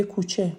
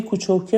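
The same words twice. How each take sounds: First: Said in the usual way. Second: Shirazi کوچوکه, with the added "-oke" ending; Shirazi accent. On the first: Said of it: "به جای کوچوکه میگه کوچه". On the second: Shown as a demonstration. Teacher quotes the dialect form to be corrected, Shirazi accent. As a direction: say کوچوکه as a Shirazi local would. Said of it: "روی لهجهش کار کنه".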